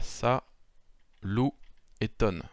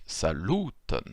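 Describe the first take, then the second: First: "sa, lou, ton" split by pauses; syllable by syllable. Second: "saluton" in one word, middle "lu" drawn out; stress on LU. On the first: Teacher counting out three syllables, syllable by syllable. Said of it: "on a trois syllabes". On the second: Teacher showing how the word is pronounced, stress on second-last syllable. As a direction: lean on the LU of saluton. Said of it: "lorsqu'on le prononce". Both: Shown as a demonstration.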